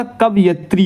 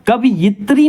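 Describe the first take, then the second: First: कवयित्री said slowly as "kav-ya-tri"; drawn-out कवयित्री, no i after the v; correct pronunciation. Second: कवयित्री said "ka-vi-yi-tri", with an extra i; wrong pronunciation. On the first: Teacher correcting the word, slow "kavyatri" for कवयित्री. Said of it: "कवयित्री होता है". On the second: Teacher showing the common mistake, i-vowel "kaviyitri" for कवयित्री. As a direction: put an i after the v in कवयित्री. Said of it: "कवयित्री नहीं होता". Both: Shown as a demonstration.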